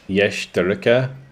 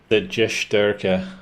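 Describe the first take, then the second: First: It begins with a Y sound as in yes. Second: It begins with a J sound as in jungle. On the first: The speaker calls it right. "The J is pronounced like Y in yes" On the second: The speaker calls it wrong. "not Y in jungle"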